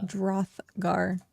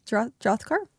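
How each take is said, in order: First: Drothgar said flat and settled, falling; confident repeat. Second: Drothgar asked with a rising, unsure tune; unsure pronunciation. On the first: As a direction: repeat Drothgar firmly after the correction. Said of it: "Drothgar, yeah". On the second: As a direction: try Drothgar hesitantly as a question. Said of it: "how do you pronounce that?". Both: Shown as a demonstration.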